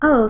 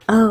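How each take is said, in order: First: It is said in a higher, normal voice. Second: It is said in a deeper voice.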